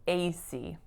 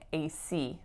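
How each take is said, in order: First: The stress is on the first syllable A. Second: The stress is on the final syllable C. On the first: The speaker calls it wrong. "what I said was A C ... I can't stress that A" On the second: The speaker calls it right. "I should be saying A C"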